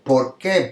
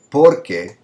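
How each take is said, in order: First: "por qué" as two words, the weight on "qué"; stress on qué. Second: "Porque" run together, stressed on "Por"; one word "Porque", weight up front; stress on first syllable. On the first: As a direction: lean on the second word "qué" in "por qué". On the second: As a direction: punch the "Por" of "Porque", letting "que" drop. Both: Shown as a demonstration. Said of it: "It sounds differently".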